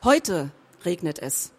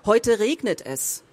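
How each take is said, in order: First: The word heute is stressed. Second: The word regnet is stressed. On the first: It did not rain yesterday, but today it does. "Das heißt, gestern hat es nicht geregnet" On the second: It is raining, so take an umbrella. "Das heißt, geh nicht ohne Schirm aus dem Haus"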